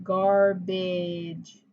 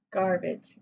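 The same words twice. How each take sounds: First: "Garbage" drawn out slowly as two syllables, gar, bidge. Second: Said in the usual way. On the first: Shown as a demonstration. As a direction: stretch each syllable of "Garbage", low and even. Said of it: "hear in the second syllable". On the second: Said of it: "the word is garbage".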